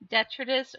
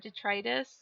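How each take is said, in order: First: The middle vowel is a short I sound. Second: The middle vowel is a long I sound.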